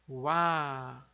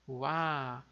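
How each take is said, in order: The two takes are said the same way.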